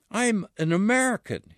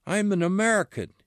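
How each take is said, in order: First: Higher, gently begging, a mild plea; pleading. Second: Raising his voice. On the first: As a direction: ask to be believed, understated pleading. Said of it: "pleading now". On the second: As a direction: push the claim out fast, mildly raised. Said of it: "raising his voice". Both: Acted.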